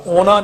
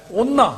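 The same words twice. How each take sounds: First: ਉਹਨਾਂ as plain "o-na", n not held; wrong single n. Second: ਉਹਨਾਂ high, as "onn-na"; correct doubled n. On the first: Teacher showing what not to say, ਉਹਨਾਂ with single n. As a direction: say ਉਹਨਾਂ with one light n. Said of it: "ਉਹਨਾਂ ਨਹੀਂ ਕਹਿਣਾ". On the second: Teacher showing how to say it, ਉਹਨਾਂ high with doubled n. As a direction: hold the n in ਉਹਨਾਂ, pitched high. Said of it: "ਇਸ ਤਰ੍ਹਾਂ ਬੋਲਣਾ". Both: Shown as a demonstration.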